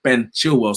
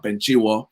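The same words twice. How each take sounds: First: Chilwell said clearly with both l sounds; corrected Chilwell. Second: Chilwell said as "Chiwor", the l dropped; slip on Chilwell. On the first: Host correcting a slip, Chilwell articulated as "CHIL-well". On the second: Host naming the new signing, Chilwell fumbled as "Chiwor". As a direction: slur Chilwell into "CHEE-waw". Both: Real, not acted.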